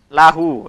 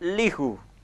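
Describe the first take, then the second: First: The first syllable has the vowel a. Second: The first syllable has the vowel i. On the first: The speaker calls it right. "Saya mengatakan" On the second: The speaker calls it wrong. "Saya tidak mengatakan"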